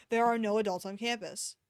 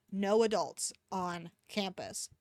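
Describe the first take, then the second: First: "There are no adults on campus." with "are" stressed and falling. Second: "No adults on campus." slow, weight on "No"; stress on no. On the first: Gary copying the prefect, stressing are. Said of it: "I copied". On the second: Gary repeating himself to a slow friend, stressed. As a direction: spell out "No adults on campus" slowly, leaning on "No". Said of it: "I just said it". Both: Acted.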